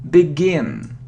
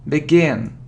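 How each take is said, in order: No difference in how they are said.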